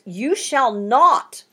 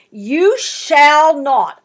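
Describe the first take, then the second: First: "You shall not" slow, with a rise on "not"; preacher underlining "You shall not" for the congregation; emphatic you shall not. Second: "You shall not" slow, loud, each word hit hard; preacher stressing "You shall not" to the congregation; emphatic you shall not. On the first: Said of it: "They're pretty high on my list of emphatics". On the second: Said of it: "you can underline those two words". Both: Shown as a demonstration.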